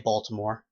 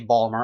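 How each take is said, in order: First: The name is said with all three syllables. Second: The name is clipped to two syllables. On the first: This is how the speaker actually talks. "I say Baltimore" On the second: This is the strong local accent. "I don't exactly have the Balmer accent. I mean, I don't say Balmer"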